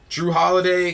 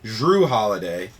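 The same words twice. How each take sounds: First: The first name begins with a D sound. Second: The first name begins with a J sound. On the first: The speaker calls it wrong. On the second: The speaker calls it right.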